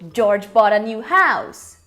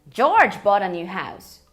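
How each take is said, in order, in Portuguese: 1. A palavra house tem a ênfase mais forte. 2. A palavra George tem a ênfase mais forte. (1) "enfatizando house" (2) "Quando eu enfatizo o George"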